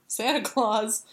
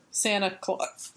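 First: Said in the usual way. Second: Hiccup. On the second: Real, not acted. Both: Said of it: "So excited I hiccuped on Santa Claus".

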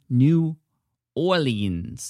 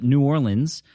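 First: Put-on drawn-out, higher-pitched botched accent on New Orleans; bad attempted accent. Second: Said in the usual way. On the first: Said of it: "That's the worst accent I've ever done".

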